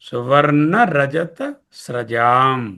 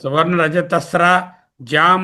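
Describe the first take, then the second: First: The last word is said as one unit. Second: The last word is split with a break. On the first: The speaker calls it right. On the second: The speaker calls it wrong.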